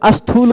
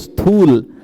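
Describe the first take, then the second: First: A short vowel is added before the s sound. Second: The word starts directly with the s sound. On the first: The speaker calls it wrong. "बहुत सारे लोग अस्थूल कहेंगे" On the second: The speaker calls it right. "स्थूल बोलिए"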